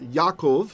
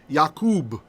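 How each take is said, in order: First: The word ends with a v sound. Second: The word ends with a b sound. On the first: The speaker calls it right. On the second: The speaker calls it wrong.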